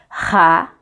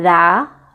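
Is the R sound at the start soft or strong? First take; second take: strong; soft. First: The R at the start sounds strong. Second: The R at the start sounds soft. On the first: "o R forte, ele vai ter o som do" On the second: "O R fraco, ele brando, é"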